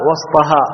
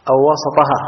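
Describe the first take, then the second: First: وسطها as WAS-Ta-haa, no vowel after s; sukun on the seen. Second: وسطها as wa-sa-Ta-haa; short a after the s in وسطها; fatha on the seen. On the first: Teacher reciting one hadith reading, unvowelled seen in وسطها. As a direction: keep the seen of وسطها closed. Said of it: "وإسكان السين". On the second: Teacher offering the other hadith reading, opened seen in وسطها. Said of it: "فتح السين". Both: Shown as a demonstration.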